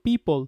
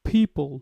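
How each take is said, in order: First: The first sound has no strong puff of air. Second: The first sound has a strong puff of air. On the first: "normally আমরা বলতাম" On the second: "ওইখানে stress দিলে কি হবে"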